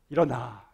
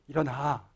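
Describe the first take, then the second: The two takes are said the same way.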